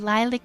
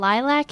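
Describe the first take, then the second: First: The word is pronounced in a soft-sounding way. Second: The word is pronounced in a harsh-sounding way. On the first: "lilac is soft sounding" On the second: "lilac is just harsh sounding"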